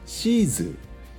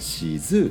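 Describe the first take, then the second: First: The pitch falls at the end of the word. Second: The pitch rises at the end of the word. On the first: This is the standard Japanese way. "標準語ではシーズーになるのかな、下がる最後ね" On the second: This is the Kansai dialect way. "関西弁が上がるんだって、さ最後がだからシーズーってなる"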